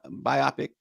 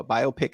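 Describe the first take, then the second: First: Biopic said as bye-OP-ic; alternate pronunciation. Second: Biopic said as BYE-oh-pick; biopic with a long O, like bio-pic; alternate pronunciation. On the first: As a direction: rhyme biopic with myopic, stressing OP. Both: Shown as a demonstration. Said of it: "however you say it".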